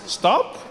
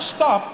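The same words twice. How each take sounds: First: It is said as a gentle suggestion. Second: It is said as a firm command.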